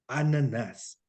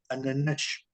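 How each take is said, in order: First: Brazilian "Ananás", last vowel drawn out and falling; Brazilian singsong. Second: "ananás" with a final "sh" as in Portugal; European Portuguese accent. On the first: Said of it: "los brasileños, sobre todo". ("Ananás" con cantadito brasileño) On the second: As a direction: end "ananás" on a hushing Portuguese sh. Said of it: "Porque en Portugal dirían". ("ananás" con acento de Portugal, final en "sh") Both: Shown as a demonstration.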